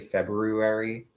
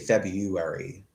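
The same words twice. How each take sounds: First: The first R sound is pronounced. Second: The first R sound is dropped. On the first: This is the supposedly proper way nobody uses. "are you supposed to pronounce that R?" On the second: This is how the speaker normally says it. "I always say February"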